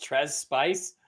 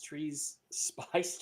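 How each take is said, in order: First: "Trez Spice" with a short e, "Trez" rhyming with fez; corrected name. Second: "Treese Spice" with a long ee, "Treese" like trees; reading "Treese Spice" as Treese, rhyming with geese; first guess at a name. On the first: Host corrects himself on the winner's name, "Trez" with a short e. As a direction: switch to "Trez", short clipped e. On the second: Host tries a winner's name, saying "Treese" with a long ee. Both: Shown as a demonstration.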